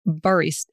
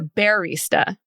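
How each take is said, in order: First: The first syllable sounds like the word bar. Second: The first syllable sounds like the word bear. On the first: It names an ordinary coffee maker. The speaker calls it wrong. "it's not barista" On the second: The name is a pun on a teddy bear. The speaker calls it right. "it's a play on barista with the bear"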